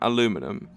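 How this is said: It is said in the American way.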